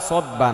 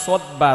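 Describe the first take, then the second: First: The first word ends on a consonant. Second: The first word ends on a consonant.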